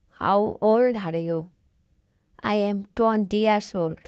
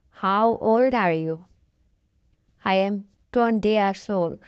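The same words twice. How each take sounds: The two takes are said the same way.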